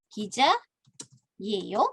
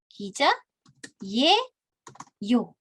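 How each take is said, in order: First: The pitch rises at the end. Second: The pitch falls at the end. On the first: It asks a question. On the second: It makes a statement.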